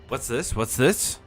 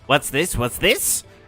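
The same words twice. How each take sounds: First: It is said in the speaker's normal voice. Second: It is said in a put-on character voice.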